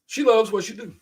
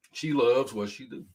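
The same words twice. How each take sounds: First: "loves" lifted high and louder with pride; proud emphasis. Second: Said in the usual way. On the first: Real, not acted. Proud dad about his daughter, "loves" raised high. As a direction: say "She loves what she do." beaming.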